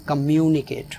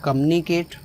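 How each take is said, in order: First: "communicate" with a full, stressed "MYOO"; correct pronunciation. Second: "communicate" squashed to "kum-nicate"; wrong pronunciation. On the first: Teacher models the correct "communicate", stress on MYOO. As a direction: say "communicate" as kuh-MYOO-ni-kate. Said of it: "it is communicate". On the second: Teacher shows a wrong "communicate" with the "mu" dropped. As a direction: swallow the "mu" in "communicate", saying "kamnikate". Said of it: "it is not communicate". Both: Shown as a demonstration.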